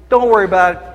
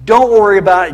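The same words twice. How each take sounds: First: Said in the usual way. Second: Louder, pushed-up repeat of the reassurance; mock dismissive, louder insistence. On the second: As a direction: hammer it home, mockingly.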